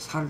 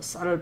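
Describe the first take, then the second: First: The first consonant is a plain 's' sound. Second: The first consonant is a tense 'ss' sound. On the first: The speaker calls it wrong. "쌀을 발음을 못해 살 살이라고" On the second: The speaker calls it right.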